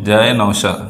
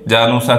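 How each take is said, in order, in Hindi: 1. इसे 'jaa-e naushaa' कहा जाता है, 'sh' के साथ। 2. इसे 'jaanusaa' की तरह जोड़कर बोला जाता है, 's' के साथ। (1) "असल में लोग इसको बिगाड़ कर क्या क्या कह देते हैं" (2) "जानूसा कह देते हैं"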